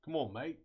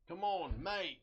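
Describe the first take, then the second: First: Put-on a light Australian accent, coaxing the part into place; playful Australian coaxing. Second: Put-on higher, more urgent Australian accent. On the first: Coaxing the pin into place in a mock Australian accent. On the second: Urging the stuck pin again in a higher mock Australian accent. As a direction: push it harder in a mock Australian voice. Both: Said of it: "I feel so Australian when I do this".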